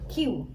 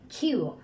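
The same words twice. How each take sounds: First: The K sound is said without a puff of air. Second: The K sound is said with a puff of air. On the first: The speaker calls it wrong. "Most of the time এভাবে বলি" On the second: The speaker calls it right. "খ দিয়ে বলবো"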